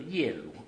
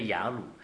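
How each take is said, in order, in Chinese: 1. 第一个音节发 ye。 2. 第一个音节发 ya。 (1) "圣经很那个字典很清楚，叫做耶鲁" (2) "为什么我们都叫雅鲁？"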